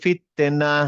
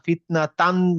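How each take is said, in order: First: The word ends on a plain a vowel. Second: The word ends with a final tan syllable. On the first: The reader stops at this word. "আপনি বলবেন ফিতনা।" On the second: The reader carries on without stopping here. "আপনি যদি এখানে ফিতনা ফিতনা তান বলেন, তাহলে এখানে থামা যাবে না।"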